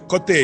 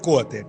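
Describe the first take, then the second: First: The stress falls where Russian speakers put it. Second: The stress falls where the local region puts it. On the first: The speaker calls it wrong. "не кажуть коти, як москалі" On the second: The speaker calls it right. "кажуть коти... це значно м'якше"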